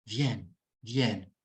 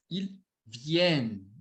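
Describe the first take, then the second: First: Viennent said lower, ending at vienn with no extra syllable; cut-off pronunciation. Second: Ils viennent said slowly and whole, with the final syllable audible; slow model of Ils viennent before the correction; full form said slowly. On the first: Teacher showing students the word ends at the n, low and deliberate. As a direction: viennent clipped short after the n, said twice. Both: Shown as a demonstration. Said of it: "Você vai pronunciar só até aqui".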